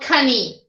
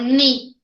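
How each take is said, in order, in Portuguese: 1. Um som de k é pronunciado antes do n. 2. A palavra começa direto com o som de n. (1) "Eu não falo cani" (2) "eu não pronuncio esse K. Eu falo ni"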